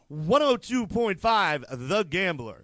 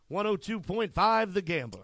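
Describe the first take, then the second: First: It is said with extra warmth and affection. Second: It is said in a plain way.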